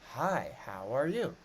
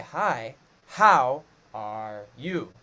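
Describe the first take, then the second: First: Some words are stressed more, in natural rhythm. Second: Every word gets the same, unnatural stress. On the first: The speaker calls it right. "It's just certain words take more stress from us" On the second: The speaker calls it wrong. "You don't say"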